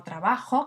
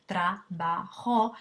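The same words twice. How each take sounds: First: Said in the usual way. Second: "trabajo" slowly split into tra, ba, jo; syllable by syllable. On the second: Shown as a demonstration. Teacher showing a word with three syllables, "trabajo" slowly syllabified. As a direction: say "trabajo" at half speed, each of the three syllables separate. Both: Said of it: "que tiene tres sílabas".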